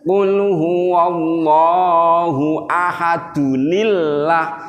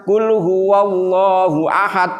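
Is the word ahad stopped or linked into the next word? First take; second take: linked; stopped. First: Ahad links into the next word with -dunil. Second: It stops on ahad with no n sound. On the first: The speaker calls it right. "Kalau mau nyambung" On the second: The speaker calls it wrong. "diwakofin, dimatiin yang terakhir, terus nyambung Allahus somad, itu salah"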